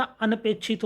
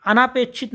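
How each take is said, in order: First: Said in the usual way. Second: अनापेक्षित with long "naa"; wrong long vowel. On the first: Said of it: "होता है". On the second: Shown as a demonstration. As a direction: stretch the second syllable of अनापेक्षित. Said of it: "नहीं होता". (अनापेक्षित में लंबा ना)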